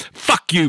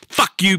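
First: Higher, sharp "Fuck you"; angry shout. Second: Much higher furious "Fuck you". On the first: Vlogger shouting at police, angry higher shout. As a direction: spit it out at them. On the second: Vlogger yelling at police again, even higher shout. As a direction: throw it harder the second time. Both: Real, not acted.

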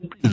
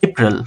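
First: Said in the usual way. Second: এপ্রিল as "ay-prul", weak last vowel; corrected April. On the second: Shown as a demonstration. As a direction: glide into এপ্রিল on "ay". (এপ্রিল-কে "এইপ্রল" উচ্চারণ) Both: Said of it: "এপ্রিল না".

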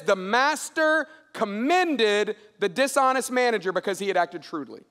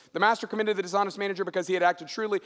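First: Deliberate scripture reading. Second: Fast run through the verse; quick recap reading. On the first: Preacher quotes what Jesus said in the story, deliberate reading. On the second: Preacher rereads the verse without time to dig in, quick recap. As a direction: rattle through the familiar words briskly. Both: A narrator's reading.

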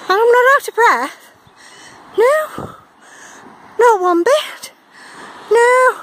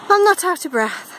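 First: High, loud breathless protest; ironic denial. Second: Said in the usual way. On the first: Real, not acted. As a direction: insist you're fine while gasping. Insisting while plainly winded.

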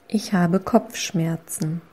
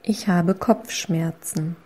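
No difference in how they are said.

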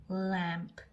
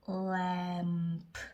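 First: Said in the usual way. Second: 램프 drawn out slowly with a separate final P; sounding out. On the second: Shown as a demonstration. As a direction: hold the L, vowel and M of 램프, then release P. (램프를 한 소리씩 길게 늘여서) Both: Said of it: "M이니까 음".

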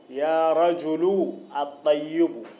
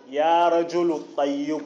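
First: "يا رجل", pause, then "الطيب" with its a sounded; words separated. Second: "يا رجل الطيب" joined as "rajulu-ttayyibu"; connected, no tanween. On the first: Teacher splitting the example, "يا رجل. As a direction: break after the u of "رجل", restart on "al" of "الطيب". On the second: Teacher showing the joined form, "يا رجل الطيب" linked without tanween. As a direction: run "رجل" straight into "الطيب", no n between. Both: Shown as a demonstration. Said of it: "مع أن الكلمة في حالة الوصل".

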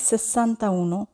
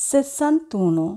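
First: "sessanta uno" said as two separate words with a break before uno; wrong split form. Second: Said in the usual way. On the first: Shown as a demonstration. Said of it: "এটি ভুল উচ্চারণ". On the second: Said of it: "আমরা উচ্চারণ করব".

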